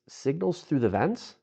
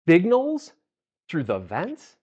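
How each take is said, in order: First: It sounds calm and genuinely curious. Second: It sounds skeptical and judgmental. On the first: The listener is interested in hearing more. The speaker calls it right. "In a way that sounded curious, not judgmental" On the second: The listener doubts what was said. The speaker calls it wrong. "The wrong emphasis can make someone feel judged or challenged"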